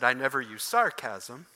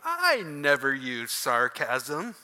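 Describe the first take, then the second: First: It is said in a plain, sincere tone. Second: It is said with a mocking, sarcastic tone. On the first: The words are meant literally. "if I simply said" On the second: The opposite of the words is meant. "you would laugh"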